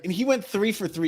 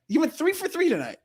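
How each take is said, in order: First: Said in the usual way. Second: "three for three" pitched higher and hit hard; emphatic repeat. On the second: Real, not acted. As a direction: push the repeat up to drive home "three for three". Repeats the point more strongly.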